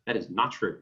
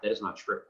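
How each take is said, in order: First: "not" punched, falling hard; "not" hit firmly as the key word; stress on not. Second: Said in the usual way. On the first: Shown as a demonstration. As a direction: lean on "not" to flatly deny it. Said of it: "repeats the denial with stress". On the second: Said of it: "repeats the denial twice".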